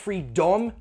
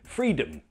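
First: The second syllable has a full, clear vowel. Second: The second syllable has a reduced schwa vowel. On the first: The speaker calls it wrong. "Not freedom, no" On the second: The speaker calls it right. "It's unstressed, so schwa"

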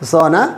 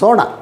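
First: The n sound is made dental. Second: The n sound is made retroflex. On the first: It means to sleep. "സോന ഉറങ്ങുക" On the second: It means gold. "സ്വർണത്തെക്കുറിച്ച് പറയുമ്പോൾ സോണ എന്നാണ് പറയുക"

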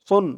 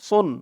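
First: The s sound is heavy, with a full mouth. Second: The s sound is heavy, with a full mouth.

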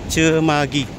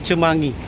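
First: The middle has a plain 'g' sound. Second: The middle has an 'ng' sound. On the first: The speaker calls it right. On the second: The speaker calls it wrong. "Salah bilang saya, guys. Bukan Cemangi"

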